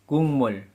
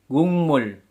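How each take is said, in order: No difference in how they are said.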